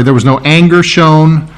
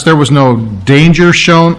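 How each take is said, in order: First: "anger" said cleanly with no d sound, as the fix; the correction, "anger" without the d; corrected word. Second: Says "danger" by mistake, with a d sound before "anger"; slip of the tongue. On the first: Preacher corrects his slip for the congregation, plain "anger". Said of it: "I'm sorry". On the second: Preacher misspeaks while describing Jairus, plain slip on "danger". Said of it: "I'm sorry, there was no anger shown". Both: Real, not acted.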